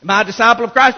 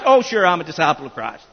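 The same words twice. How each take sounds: First: Said in the usual way. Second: Lower, fast and offhand, a smug shrug of a reply; mock complacent answer. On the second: Shown as a demonstration. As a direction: toss it off like a self-satisfied churchgoer. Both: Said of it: "No, no, no".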